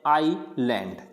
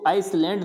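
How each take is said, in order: First: No s sound is pronounced in the middle. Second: An s sound is pronounced in the middle. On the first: The speaker calls it right. "इसको क्या पढ़ते हैं" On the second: The speaker calls it wrong. "इसको आइसलैंड नहीं पढ़ते"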